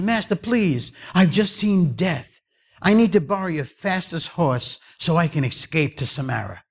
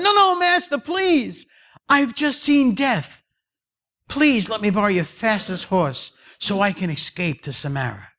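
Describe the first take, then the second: First: Raised-pitch plea, easing down by the end; acted anxious servant; frightened pleading. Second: Very high, panicky plea; acted terrified servant; desperate pleading. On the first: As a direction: beg the master for a way out. Servant fleeing Death begs master. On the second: Servant begs again, more desperately.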